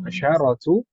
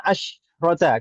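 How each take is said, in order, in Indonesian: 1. Ada vokal a pendek yang mengikuti bunyi sh. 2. Tidak ada vokal yang mengikuti bunyi sh. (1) "Pakai fathah" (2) "Kalau di bilangan belasan"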